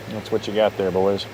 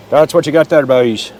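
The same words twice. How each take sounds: First: Said in the usual way. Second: Bad Irish accent. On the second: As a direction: belt it out in a badly faked Irish brogue. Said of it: "that's a horrible Irish accent".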